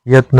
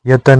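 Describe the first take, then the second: First: यत्न with the cluster त्न; correct form. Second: यतन in three syllables; wrong form. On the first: Teacher giving the correct form, यत्न. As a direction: say यत्न in two syllables. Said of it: "होता है". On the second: Teacher voicing the wrong form, यतन. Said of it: "नहीं होता है". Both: Shown as a demonstration.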